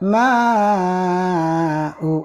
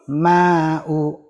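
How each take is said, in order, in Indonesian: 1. Vokal panjang ditahan selama enam ketukan. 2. Vokal panjang ditahan selama dua ketukan. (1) "Enam harokat, empat kali ketukan singkat" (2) "Dua harokat, dua kali ketuk"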